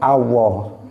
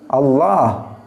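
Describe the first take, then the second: First: The middle consonant sounds like w. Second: The middle consonant is a long l. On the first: The speaker calls it wrong. "lamnya diganti wawu" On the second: The speaker calls it right. "pakai lam panjang"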